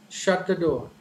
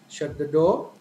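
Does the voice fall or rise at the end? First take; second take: fall; rise. First: The voice falls at the end. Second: The voice rises at the end. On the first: It is a command. "When it is a command, shut the door. So initially high and finally the tone falls down" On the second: It is a question. "But when it comes to question, the tone gradually raises"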